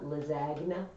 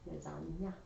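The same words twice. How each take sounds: First: The g and n are sounded separately. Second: The gn is said like ny. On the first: The speaker calls it wrong. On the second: The speaker calls it right.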